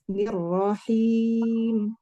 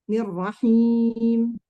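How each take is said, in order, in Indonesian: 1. Bunyi akhirnya dijaga agar tidak lewat hidung. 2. Bunyi akhirnya didorong lewat hidung. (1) "Harusnya nirrahim. Jangan sampai ke hidung" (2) "suka masuk ke hidung"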